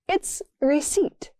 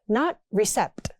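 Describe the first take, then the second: First: The P is silent in the word. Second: A P sound is pronounced in the word. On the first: The speaker calls it right. "That P is silent" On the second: The speaker calls it wrong.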